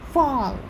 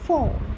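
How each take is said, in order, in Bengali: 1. স্বরধ্বনিটি টানা আর লম্বা। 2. স্বরধ্বনিটি ছোট আর ছাঁটা। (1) "আমেরিকান সবসময় একটু টেনে টেনে, মাত্রা বেশি।" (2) "আর ব্রিটিশটা ছোট ছোট।"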